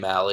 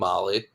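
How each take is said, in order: First: The first vowel sounds like 'a' in cat. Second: The first vowel sounds like 'ah' in father. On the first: The speaker calls it wrong. "Don't say Mally" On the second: The speaker calls it right. "It's Morgan Molly"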